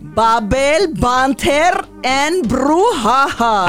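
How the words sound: It is said in an Armenian accent.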